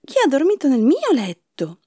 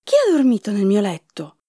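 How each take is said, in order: First: Higher question, stress on "mio"; a hint of a put-out mama bear; lightly voiced mama bear. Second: Lightly voiced papa bear's question; a touch of papa bear's indignation; papa bear exclaiming. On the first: Mama bear asks who slept in her bed, higher lightly voiced question. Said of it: "Mamma orsa disse". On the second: Papa bear sees the rumpled beds, lightly voiced exclamation. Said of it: "esclamò". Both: A narrator's reading.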